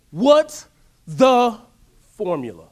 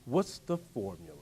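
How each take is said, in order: First: Each word punched loud and slow, "What's the formula?" demanded; loud demanding question. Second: "What's the formula?" dropped low and soft, falling; quiet musing question. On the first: Preacher to crowd, demanding loudly "What's the formula?". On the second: Preacher to crowd, musing softly "What's the formula?". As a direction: murmur "What's the formula?" to yourself. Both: Shown as a demonstration. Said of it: "I go on these little side tangents".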